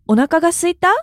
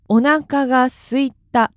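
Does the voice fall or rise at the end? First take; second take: rise; fall. First: The voice rises at the end, like a question. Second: The voice falls at the end, like a statement. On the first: It asks whether the listener is hungry. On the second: The speaker is hungry.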